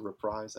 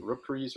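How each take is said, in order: First: Reprise with a long "eye" sound, "ruh-PRIZE"; alternative pronunciation of Reprise. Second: Reprise with an "ee" sound, "ruh-PREEZ"; first pronunciation of Reprise. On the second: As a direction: say Reprise to rhyme with "breeze". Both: Shown as a demonstration. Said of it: "is it Reprise or Reprise?".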